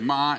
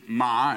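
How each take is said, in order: First: The pitch stays high and level. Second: The pitch dips low and then rises. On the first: It means mother. "is mother" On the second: It means horse. "is like, horse"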